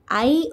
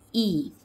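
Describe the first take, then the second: First: The vowel sounds like the one in bike. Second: The vowel sounds like the one in tip. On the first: "Long sound of I is" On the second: "Short sound of I is"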